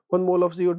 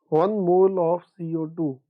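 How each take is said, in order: First: The phrase is read quickly and hurriedly. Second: The phrase is read slowly and deliberately. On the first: The reader is rushing without understanding. The speaker calls it wrong. "don't read it like" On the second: The reader is taking in each detail confidently. The speaker calls it right. "Always read it slowly. Be confident"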